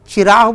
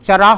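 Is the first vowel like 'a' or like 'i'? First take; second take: i; a. First: The first vowel is a short 'i' sound. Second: The first vowel is a short 'a' sound. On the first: The speaker calls it wrong. "चिराग बोलते हैं, ये तलफ़ुज़ की गलती है" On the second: The speaker calls it right. "चराग को"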